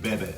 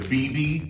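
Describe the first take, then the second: First: It is spoken as one two-syllable word. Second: It is spoken as two separate letter names. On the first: The speaker calls it right. "but you pronounce it Bebe" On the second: The speaker calls it wrong. "it looks like in America B B"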